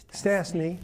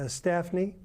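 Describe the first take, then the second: First: Corrects himself to Stassny, with s not f; corrected name. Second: Staffney said with an f sound in the middle, STAFF-nee; wrongly says the name as Staffney, with an f; mispronounced name. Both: Real, not acted.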